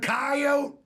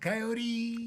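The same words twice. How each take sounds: First: Coyote is said in a folksy, drawn-out way. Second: Coyote is said in a plain, ordinary way.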